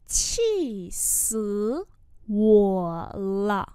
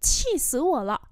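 First: Separated, stretched syllables; slow demonstration with gaps; slow model pronunciation. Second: Said in the usual way. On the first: Shown as a demonstration. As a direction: teach it word by word. Teacher repeats phrase slowly.

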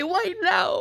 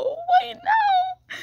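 First: Said in the usual way. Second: High, drawn-out whimpering wail; whiny wail. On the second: Real, not acted. Wailing at the Wi-Fi for failing right now, much higher. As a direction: cry out at the failing Wi-Fi.

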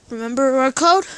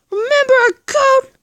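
First: Said in the usual way. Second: High, loud demanding repeat; loud insisting. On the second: Acted. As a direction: shout it, demanding he remembers. Third repeat, loudest.

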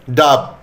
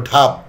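First: Said in the usual way. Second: ঢাব with a breathy retroflex dh; mispronounced aspiration. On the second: Shown as a demonstration. Teacher showing a slip in saying dab, aspirated ঢাব. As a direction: start ঢাব with aspirated dh in place of d. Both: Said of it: "এটাকে বলল".

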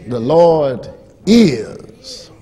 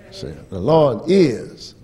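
First: The Lord is drawn out very slow and firm; slow proclamation. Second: Said in the usual way. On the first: Shown as a demonstration. Preacher pressing the phrase on the church, slow and firm. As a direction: lean into every word of The Lord is, slow.

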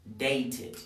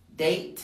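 First: "dated" as date-id; "dated" falling onto a clear "id"; added -ed syllable. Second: Said in the usual way. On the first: Shown as a demonstration. Teacher drilling verbs in t, "dated" said date-id. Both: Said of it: "todos los que terminen en t".

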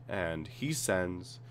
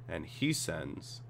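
Both takes have the same delivery.

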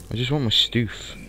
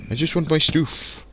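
First: Said in the usual way. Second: Whiny high plea. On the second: Real, not acted.

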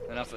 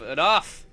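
First: Said in the usual way. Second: Loud shouted enough. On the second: Real, not acted. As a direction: yell enough in frustration. Repeats word then shouts it.

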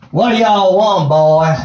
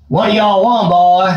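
First: A poorly done Southern states drawl. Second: Southern drawl. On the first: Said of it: "an admittedly poorly executed southern states drawl". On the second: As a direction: lean into a hammy Southern states drawl. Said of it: "stick with the Southern States drawl". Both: Retold or imitated.

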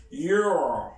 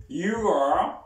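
First: You're blended into one falling syllable; contracted you're. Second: You are said as two full words, rising at the end; full form you are. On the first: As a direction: squeeze You're into a single beat. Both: Shown as a demonstration. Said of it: "Repeat after me".

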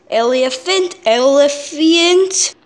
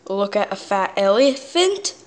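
First: "elephant" stretched out slow and loud; funny mispronunciation. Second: Said in the usual way. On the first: Shown as a demonstration. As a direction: draw out "elephant" as a goofy "eli-e-fant". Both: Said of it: "I did that on purpose".

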